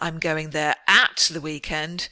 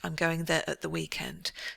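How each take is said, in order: First: The word 'at' has a full, stressed vowel. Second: The word 'at' is reduced to a weak schwa. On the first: The speaker calls it wrong. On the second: The speaker calls it right.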